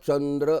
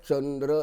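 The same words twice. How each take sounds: No difference in how they are said.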